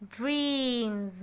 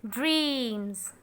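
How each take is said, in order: Both takes have the same delivery.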